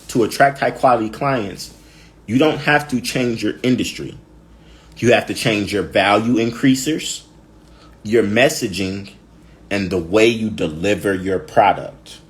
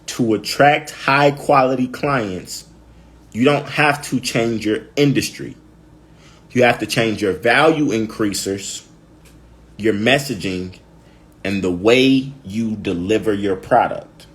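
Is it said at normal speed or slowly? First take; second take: normal speed; slowly. First: It is said at normal speed. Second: It is said slowly.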